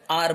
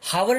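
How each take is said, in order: First: The word begins with a vowel, h silent. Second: The word begins with an audible h sound. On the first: The speaker calls it right. "आर बोलते हैं, क्योंकि एच क्या रहता है यहां पे, silent रहता है" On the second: The speaker calls it wrong. "हावर नहीं बोलते हम इसको"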